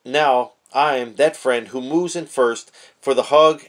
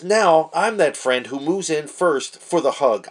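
First: Said in the usual way. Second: Slow, read-aloud delivery; quoting the written lesson slowly; reading the text. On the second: Shown as a demonstration. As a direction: read it out deliberately from the page. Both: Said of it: "And it says".

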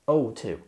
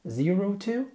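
First: "oh two" with the zero said like the letter O, lower and settled; correct version. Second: "zero two" read with a raised pitch, zero said as a number; wrong version. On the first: Teacher correcting himself for learners, zero said as O. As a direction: give the right reading "oh two", calm and sure. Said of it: "الزيرو في الساعة بيتنطق كأنه حرف ال O". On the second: Teacher showing learners the wrong way to read a time. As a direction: offer "zero two" as the mistake to avoid. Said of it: "لا". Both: Shown as a demonstration.

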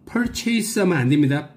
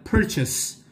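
First: Purchase said pur-CHASE, stress on the end; wrong reading. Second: Purchase said PUR-chis, stress on the front; correct purchase. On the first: Teacher mocks the wrong reading, purchase stressed on chase. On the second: Teacher gives the right version, purchase stressed first. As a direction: purchase with a short second syllable. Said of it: "스트레스를 맨 앞에 줍니다". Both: Shown as a demonstration.

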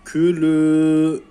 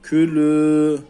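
First: Külü with the final ü held long; teacher showing the madd; lengthened vowel. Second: Külü with the final ü drawn out; teacher repeating the madd demo; lengthened vowel again. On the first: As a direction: stretch the last ü of Külü. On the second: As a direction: hold the ü in Külü. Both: Shown as a demonstration. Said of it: "Uzatıyoruz".

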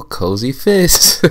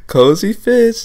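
First: Slow, stretched announcement of the name; drawn-out name. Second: Much higher, gleeful repeat of "Cozy Fist"; excited squeal. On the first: Host slowly unveils the outfit name, drawn out. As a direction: savor each word like a runway call. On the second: Host squeals the outfit name at the camera in delight. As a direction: squeal it out like you can't contain yourself. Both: Acted.

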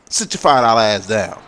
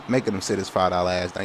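First: Loud taunting trash talk; trash talk shout. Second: Said in the usual way. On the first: Real, not acted. Taunting the defender he flattened, loud trash talk.

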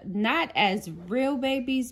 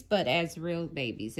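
First: "not" lifted high and hit hard, rest falls; stress on not. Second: "but" leaned on, lower and falling to "babies"; stress on but. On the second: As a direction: press "but", let the line drop. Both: Shown as a demonstration. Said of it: "if that makes sense".

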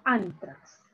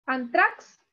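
First: "antrax" stressed ÁN-trax, falling after it; stress on first syllable. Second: "Antrax" wrongly stressed an-TRAX, rising questioningly; stress on last syllable. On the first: Teacher offering students the correct option, "antrax" stressed ÁN-trax. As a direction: hit ÁN in "antrax", let trax drop. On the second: Teacher testing students with a wrong option, "Antrax" stressed an-TRAX. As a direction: offer "Antrax" with the weight on final TRAX. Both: Shown as a demonstration. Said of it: "Aquí está la mayor fuerza de voz".

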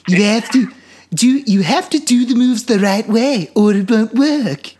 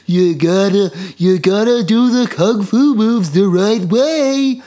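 First: High, loud cartoon baby voice slurring; drunk Stewie. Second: Put-on high, loud, slow old master voice; old kung fu master. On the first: Mocking the master's later dub as drunk Stewie, higher still. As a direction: slur it like a tipsy cartoon baby. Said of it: "drunk Stewie". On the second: Imitating the dubbed drunken master's first voice, high and loud. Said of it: "first he sounds like".

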